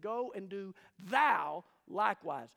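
The emphasis falls on the word thou. The listener personally must act. The speaker calls it right. "He said, ... the emphasis in the sentence in the Greek is not go and do, it's on you"

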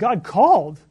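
The stress is on called.

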